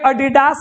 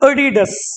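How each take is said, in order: First: The last syllable has a long vowel. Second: The last syllable has a short vowel. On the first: The speaker calls it wrong. "लोग कहेगा" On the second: The speaker calls it right. "जबकि अडीडस"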